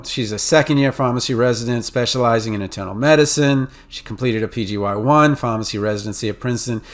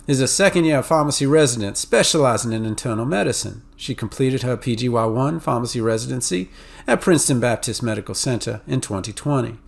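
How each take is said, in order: First: Crisp New England, Mid-Atlantic reading; New England accent. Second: Southern accent. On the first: Lecturer demos a New England Mid-Atlantic accent. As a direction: read it like a Northeasterner. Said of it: "revert to my New England, Mid-Atlantic accent". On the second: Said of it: "where somebody from the South might go". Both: Shown as a demonstration.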